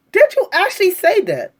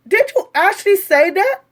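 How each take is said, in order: First: "Did" hit hard, the line falling to the end; emphatic demand. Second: Incredulous. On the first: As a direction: press them for an answer. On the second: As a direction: ask as if you can't believe it. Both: Real, not acted. Incredulous question repeated.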